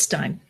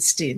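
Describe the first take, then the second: First: The vowel sounds like the word 'eye'. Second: The vowel sounds like the word 'see'. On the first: This is how her own family says it. "It's Stein" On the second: Many others with the name say it this way. "many people with that last name pronounce it Steen"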